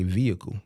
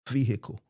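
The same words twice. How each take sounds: First: The middle h is left silent. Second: The middle h is clearly sounded. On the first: It is how people up here say it. "You could just say vehicle" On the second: It mimics how Southern speakers say it. "Y'all pronounce that H vehicle"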